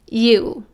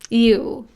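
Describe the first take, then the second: First: A slight glide sound comes before the vowel. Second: The same.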